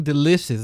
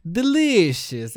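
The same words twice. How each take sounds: First: Said in the usual way. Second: Put-on "Delicious" drawn out slowly in a Peruvian Spanish English accent. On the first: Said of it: "the best way of saying delicious". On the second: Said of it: "like this Peruvian, Spanish, English accent".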